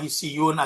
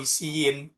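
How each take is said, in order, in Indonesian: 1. Kata ini diakhiri bunyi -un. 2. Kata ini diakhiri bunyi -in. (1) "Jangan dibaca hisiyun" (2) "atau hisiin karena sudah ada alif"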